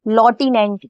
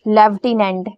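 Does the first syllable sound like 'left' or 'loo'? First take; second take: loo; left. First: The first syllable sounds like 'loo'. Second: The first syllable sounds like 'left'.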